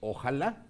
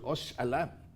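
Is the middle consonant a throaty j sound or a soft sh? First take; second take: throaty j; soft sh. First: The middle consonant is a throaty j sound. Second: The middle consonant is a soft sh sound. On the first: This is the modern pronunciation. "con el paso del tiempo pasó a ser ojalá" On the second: This is the old Castilian pronunciation. "fíjense cómo lo pronuncio"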